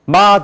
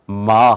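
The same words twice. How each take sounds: First: 마 with a simple Korean onset, higher. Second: 마 with a hummed onset, lower; nasal English M. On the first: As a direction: say 마 plainly, no hum. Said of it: "마 들었을 거예요". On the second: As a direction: hum through the lips into 마. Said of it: "그게 아니라 마 하는 걸". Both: Shown as a demonstration.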